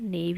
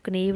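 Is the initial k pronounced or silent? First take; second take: silent; pronounced. First: The word starts with an n sound. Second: The word starts with a sounded k. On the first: The speaker calls it right. "नेव ही बोलते हैं" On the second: The speaker calls it wrong. "हम इसको कनेव नहीं बोलते हैं"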